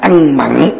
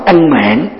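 First: The second word has a short ă vowel. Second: The second word has a long a vowel. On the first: The speaker calls it wrong. "chúng ta đọc trải âm thành là ăn mặn" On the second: The speaker calls it right.

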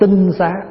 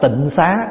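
First: The first syllable has a level tone. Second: The first syllable has a low, glottalized tone. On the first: The speaker calls it right. "Nếu đúng chữ là phải đọc là tinh xá" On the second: The speaker calls it wrong. "chúng ta hay đọc là tịnh xá, nhưng mà chữ tịnh xá là đọc chưa đúng"

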